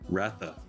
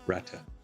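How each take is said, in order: First: The middle consonant is a soft th sound. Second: The middle consonant is a hard t sound. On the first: The speaker calls it wrong. "How were you saying it? Ratha, because it's spelled with an H" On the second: The speaker calls it right. "it's like a hard T H, like T"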